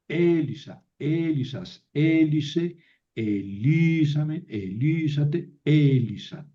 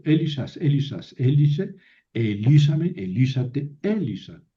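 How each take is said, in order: First: Slow measured drill, stressed vowels drawn out; recitado lento para memorizar. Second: Brisk drill from Elisas to Elisa, each accent punched; recitado con acentos marcados. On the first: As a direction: chant the forms from Elisa onward slowly, stretching each accented syllable. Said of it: "Así hay que aprenderse". (recitado pausado, alargando las sílabas acentuadas) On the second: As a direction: rattle off the Greek forms, marking where the accent moves. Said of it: "Entonces se mueve el acento". (recitado ágil de conjugación, acentos marcados)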